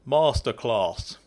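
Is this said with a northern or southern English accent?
southern. It is said in a southern English accent.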